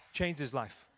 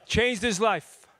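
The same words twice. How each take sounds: First: Said in the usual way. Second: Slow breathy whisper of "Changed his life.". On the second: Shown as a demonstration.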